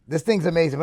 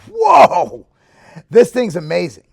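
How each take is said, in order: First: Said in the usual way. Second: Blurting out delight at the taste; excited whoa. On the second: Retold or imitated. Trying the new protein powder, loud amazed whoa. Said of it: "And I was like".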